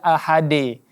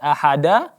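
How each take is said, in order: First: The final echo sounds like a full e. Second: The final echo sounds like a full a. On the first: "bukan juga ahade" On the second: "bukan ahada"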